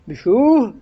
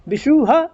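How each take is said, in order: First: It ends with only a light breathy echo. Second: It ends with a full added 'ha' syllable. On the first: The speaker calls it right. "यही उसका उच्चारण है" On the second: The speaker calls it wrong. "हा नहीं है"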